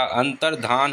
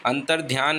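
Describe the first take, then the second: First: अंतर्धान with plain धा, no य; teacher models the correct अंतर्धान; correct form अंतर्धान. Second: अंतर्ध्यान with ध्या, the incorrect form; teacher shows the mistaken अंतर्ध्यान; wrong form अंतर्ध्यान. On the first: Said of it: "अंतर्धान होता है". (सही उच्चारण अंतर्धान) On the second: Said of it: "अंतर्ध्यान नहीं होता". (गलत रूप अंतर्ध्यान) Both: Shown as a demonstration.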